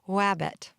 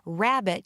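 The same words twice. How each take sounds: First: The R sound is distorted. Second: The R sound is clear and normal. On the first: The speaker calls it wrong. "Distortions also occur frequently on R sounds" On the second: The speaker calls it right. "Instead of hearing"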